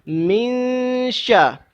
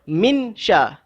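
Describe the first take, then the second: First: The n is hidden, nasalized, moving toward sh. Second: The n is pronounced clearly before sh. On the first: "Kita dengung pada masa sama mulut kita menuju ke arah nak sebut huruf shin"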